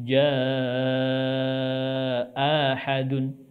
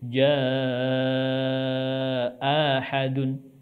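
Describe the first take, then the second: First: The second hamza becomes a long vowel. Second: The same.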